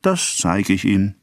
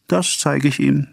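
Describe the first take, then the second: First: Slow, deliberate threat; measured, drawn-out vow; insistent threat. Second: High-pitched, insistent threat; worked-up repeated threat. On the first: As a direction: spell out the threat slowly. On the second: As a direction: push it out high, as a vow. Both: A narrator's reading. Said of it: "immer wieder".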